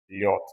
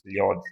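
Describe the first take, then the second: First: The word ends with a voiceless T sound. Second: The word ends with a voiced D sound. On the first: The speaker calls it right. "nós lemos liot, D um pouco mais forte" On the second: The speaker calls it wrong. "nós não lemos liod"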